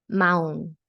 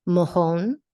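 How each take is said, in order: First: Mahón said with no H at all, ma-ON; Mahón, silent H, vowels running together; pronounced carefully. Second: Mojón said loud, with a strong breathy H sound in the middle; Mojón, pushing air hard on the J like an H; Mojón with a clear rasped H, raised voice; pronounced carefully. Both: Shown as a demonstration. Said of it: "Let's listen carefully".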